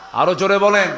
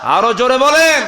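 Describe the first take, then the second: First: Raised, higher call; loud urging. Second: Very loud, high drawn call; full rallying shout. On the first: Preacher calling for a louder answer, loud urging. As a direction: press the crowd to answer up. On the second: Preacher pushing the crowd to the limit, full shout. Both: Real, not acted.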